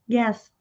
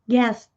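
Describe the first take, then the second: No difference in how they are said.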